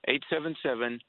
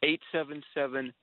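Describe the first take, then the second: No difference in how they are said.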